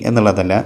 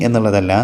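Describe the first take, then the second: The two takes are said the same way.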